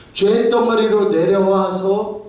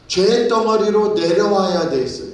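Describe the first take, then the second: First: 죄 drawn out high and loud, rising, slowly; slow emphatic preaching. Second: Rising preacher's fervour on 죄; fervent preaching. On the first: Preacher to congregation, 죄 slowed and stressed emphatically. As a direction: spell out 죄 덩어리로 slowly and weightily. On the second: Preacher to congregation, 죄 stressed in fervent preaching. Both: Acted.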